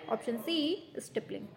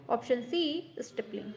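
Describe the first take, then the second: No difference in how they are said.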